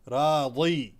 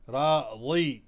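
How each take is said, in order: Both takes have the same delivery.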